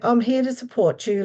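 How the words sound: It sounds hurried and uninterested. The listener is not really of interest. The speaker calls it wrong. "you're just rushing that person through"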